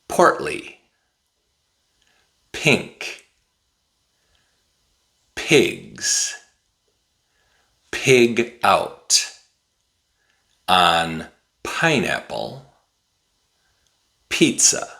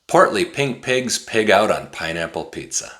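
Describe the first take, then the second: First: It is said at a slow, careful pace. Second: It is said at a very fast pace.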